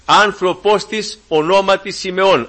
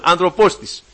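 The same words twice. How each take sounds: First: Άνθρωπος read slowly and weighed; slow scripture reading. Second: «άνθρωπος της» repeated fast with the weight on άνθρωπος; quick stressed repeat. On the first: Preacher reads the verse slowly to the brethren, stressing «άνθρωπος». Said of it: "λέει". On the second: Preacher repeats the key word quickly for the congregation. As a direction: snap back to the word «άνθρωπος». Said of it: "κοιτάξτε πώς το λέει". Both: Shown as a demonstration.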